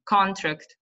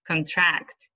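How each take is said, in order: First: "Contract" as the noun, CON-tract; first-syllable stress. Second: "contract" as the verb, con-TRACT; last-syllable stress. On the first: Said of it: "on the first syllable". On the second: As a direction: lean on the end of "contract". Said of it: "The stress is on the last". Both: Shown as a demonstration.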